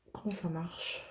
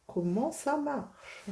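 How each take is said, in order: First: Said in the usual way. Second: "Comment ça marche?" drawn out slowly and higher; slow drawn-out question. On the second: Shown as a demonstration.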